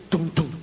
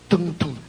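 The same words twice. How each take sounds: The two takes are said the same way.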